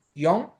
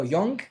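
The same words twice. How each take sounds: First: ΓΙΟΝ closing in ng without a g; correct nasal ending. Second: ΓΙΟΝΓΚ with a released g at the end; wrong hard g. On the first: Teacher correcting the hard g, nasal ending. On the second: Teacher showing what he does not say, hard g. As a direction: pop the final g of ΓΙΟΝΓΚ. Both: Shown as a demonstration. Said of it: "δεν λέω".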